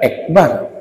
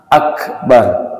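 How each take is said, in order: First: The first vowel is an e sound. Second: The first vowel is an open a sound. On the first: The speaker calls it wrong. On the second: The speaker calls it right. "Enggak ada ek"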